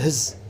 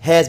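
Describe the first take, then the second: First: The word has a weak, reduced vowel. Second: The word has a full, clear vowel.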